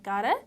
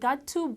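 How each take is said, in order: First: The two words are blended into one reduced form. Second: The two words are pronounced fully and separately. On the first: "gotta ምንድን ነው got to" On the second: "instead of saying"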